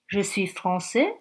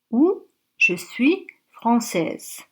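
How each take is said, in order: First: Français ending on an open vowel, no final z sound; masculine français. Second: Française ending with a clear z sound, spoken slowly; feminine française. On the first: Teacher to learners, masculine form with silent s. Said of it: "peut influencer la prononciation". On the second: Teacher to learners, slow feminine form with sounded z. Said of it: "si c'est une femme". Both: Shown as a demonstration.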